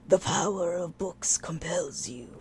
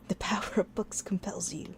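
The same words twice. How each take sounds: First: It is said in a dramatic, theatrical voice. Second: It is said in a plain, undramatic voice. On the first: The speaker calls it right. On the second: The speaker calls it wrong.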